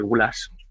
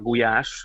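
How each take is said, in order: First: The dish name is said the Spanish way. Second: The dish name is said the Hungarian way.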